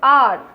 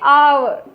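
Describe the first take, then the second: First: The word is said as one syllable, ar. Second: The word is said as two syllables, ow-er. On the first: The speaker calls it right. "इसको आर बोलते हैं" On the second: The speaker calls it wrong. "आवर भी नहीं बोलते हैं"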